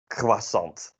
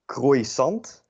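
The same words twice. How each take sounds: First: It is pronounced between French and Dutch styles. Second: It is pronounced as Dutch spelling reads. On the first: The speaker calls it right. "something in between" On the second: The speaker calls it wrong. "if you were to pronounce it phonetically Dutch"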